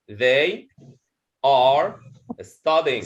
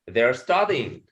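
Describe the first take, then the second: First: The word 'are' is said in full. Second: The word 'are' is reduced to a schwa. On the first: "If you wanted to pronounce it individually, you will say they are studying" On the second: "if you want to speak it in a natural speak speed, you will say they're studying. So there is a schwa here"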